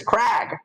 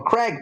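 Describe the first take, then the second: First: "Crag" with a flat a, as in bag; name read as Crag. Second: "Craig" with a short e, as in egg; name said as Craig. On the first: Reader quotes the note's spelling, "Crag" rhyming with bag. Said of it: "but the note says Crag". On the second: Reader names the man asked for, "Craig" rhyming with leg. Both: Acted.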